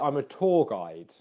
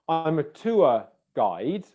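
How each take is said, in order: First: The vowel in tour is a steady long vowel. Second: The vowel in tour glides as a diphthong. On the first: "or you could say" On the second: "you could say"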